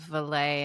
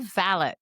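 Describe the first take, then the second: First: It uses a non-British pronunciation. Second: It uses the British pronunciation. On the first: "instead of valet" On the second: "they say valet"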